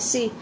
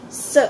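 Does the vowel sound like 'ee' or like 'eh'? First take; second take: ee; eh. First: The vowel sounds like ee. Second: The vowel sounds between a and e. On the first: The speaker calls it wrong. "hindi na siya si" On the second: The speaker calls it right. "kundi se"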